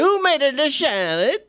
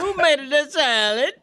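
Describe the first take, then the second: First: Salad starts with an sh-like sound. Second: Salad starts with a plain s sound. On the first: "sometimes I put an H in salad" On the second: "I'm always going to"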